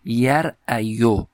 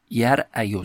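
First: یرعیو stretched out slowly, each syllable ya-ra-a-yu separated; drawn-out underlying form. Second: Said in the usual way. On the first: Shown as a demonstration. Teacher showing students the original form, said slowly. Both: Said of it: "این کلمهٔ یرعا در اصل چی بوده؟".

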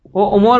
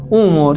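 First: «او امور» with a glottal catch between two short vowels; unsimplified hamza. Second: «امور» with a long smooth oo at the start; lightened hamza. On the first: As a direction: say «او امور» as o'omoor, both hamzas sounded. («او امور» با دو همزهٔ جدا) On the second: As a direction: say «امور» as oomoor, drawing out the first vowel. («امور» با واو کشیده در آغاز) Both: Shown as a demonstration.

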